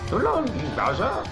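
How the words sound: It is said in an imitated character voice. "It sounds like, I mean"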